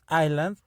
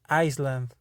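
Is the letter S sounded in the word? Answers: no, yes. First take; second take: no; yes. First: The word is said with no S sound. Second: The word is said with an S sound. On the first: The speaker calls it right. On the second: The speaker calls it wrong.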